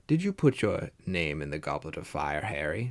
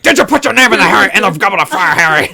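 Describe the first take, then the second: First: The question is asked in a calm voice. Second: The question is asked in an agitated voice.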